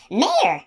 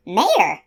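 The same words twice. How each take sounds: First: Much higher, sharp demanding cry; indignant demand. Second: Loud, high indignant blast; shrill trumpeting. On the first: Unicorn demanding an answer from the man, high indignant cry. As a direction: fling the word back at him. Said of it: "she demanded". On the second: Unicorn insulted by the man, shrill trumpeting cry. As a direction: trumpet the word in outrage. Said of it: "trumpeted the word so shrilly". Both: Acted.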